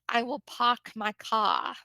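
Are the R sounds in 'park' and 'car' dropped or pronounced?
dropped. The R sounds are dropped. This is how people in Boston say it. "They don't use the letter R when they talk"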